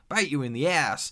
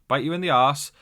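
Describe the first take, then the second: First: It is said with an American pronunciation, 'ass'. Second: It is said with a British pronunciation, 'arse'. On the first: "instead of ass" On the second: "I'm saying that in my British accent"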